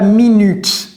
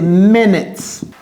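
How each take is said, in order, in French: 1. Les deux voyelles ne sont pas des sons 'i'. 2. Les deux voyelles sonnent comme un 'i' bref. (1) "Ne dites pas minutes" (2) "c'est minutes. C'est comme si c'était I et I"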